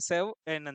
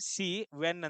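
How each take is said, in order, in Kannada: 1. ಮೊದಲ ಸ್ವರ ಹ್ರಸ್ವ, 'sev-en' ಎಂದು ವಿಭಜನೆಯಾಗುತ್ತದೆ. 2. ಮೊದಲ ಸ್ವರ ದೀರ್ಘ, 'see-ven' ಎಂದು ವಿಭಜನೆಯಾಗುತ್ತದೆ. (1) "ಬಾಳ ಅಂದ್ರೆ ಬಾಳ ಶಾರ್ಟ್ ಆಗಿ ... ಪ್ರಾಪರ್ ಪ್ರೊನೌನ್ಸಿಯೇಷನ್" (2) "ಪ್ರೊನೌನ್ಸಿಯೇಷನ್ ರಾಂಗ್ ಆಗಾಗತ್ತ"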